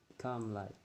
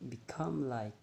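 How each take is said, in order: Both takes have the same delivery.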